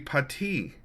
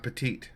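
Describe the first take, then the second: First: It is said with a French pronunciation. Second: It is said with an American pronunciation. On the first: The speaker calls it right. "it'd be pati" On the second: The speaker calls it wrong. "Petite is the American way to pronounce it"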